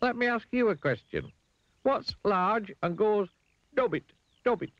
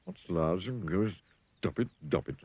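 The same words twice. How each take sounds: First: Very high, deliberate challenge; Mister Dizzy. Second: Worried elephant. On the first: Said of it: "said Mister Dizzy". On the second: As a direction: repeat it haltingly as the elephant. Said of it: "looking worried". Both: A narrator's reading.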